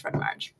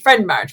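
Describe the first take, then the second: First: Breathy whisper, no voice; just whisper it back to yourself. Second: Said in the usual way. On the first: Shown as a demonstration. Repeating the phrase, now unvoiced.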